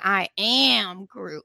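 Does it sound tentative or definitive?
definitive. It sounds more definitive and firm.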